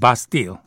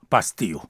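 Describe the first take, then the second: First: It is said with a British English accent. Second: It is said with a French accent.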